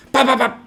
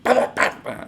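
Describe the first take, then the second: First: Loud, high voiced gunshot noises; imitating police shooting the attackers; mock gunfire. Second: Breathy unvoiced gunshot noises; whispered gunfire. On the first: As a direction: bark out the shots like a cartoon gun. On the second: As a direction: puff the shots out without voice. Imitating gunfire again.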